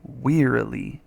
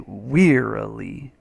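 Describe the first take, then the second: First: Wearily said slowly, WEAR stressed; wearily, slow and careful, WEAR first; slow stress demo. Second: Wearily, with weight on WEAR; wearily, WEAR stressed, rest light; stress on first syllable. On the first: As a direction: draw out wearily, leaning on WEAR. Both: Shown as a demonstration. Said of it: "You emphasize this one though".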